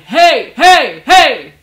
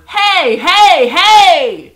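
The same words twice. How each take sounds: First: The voice is full and comes from the chest. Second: The voice is thinner and comes from the throat.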